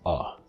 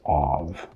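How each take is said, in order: First: It has only a schwa, with no consonant. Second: It has a full, long vowel and a consonant. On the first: It is used in even faster speech. "You even drop the consonant" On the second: It is used when speaking slowly and enunciating. "it's a long, long vowel ... the strong form"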